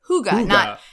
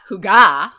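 First: The stress is on the first syllable. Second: The stress is on the second syllable. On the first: "the accent was on who, like it was hygge" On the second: "not hygge"

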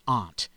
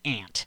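First: It is said the downstate New York way. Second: It is said the upstate New York way. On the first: "If you're downstate" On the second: "If you're upstate"

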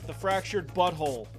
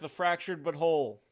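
First: The last two words are run together. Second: The last two words are kept apart. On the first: The speaker calls it right. "There you go" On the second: The speaker calls it wrong. "Pronounced that wrong"

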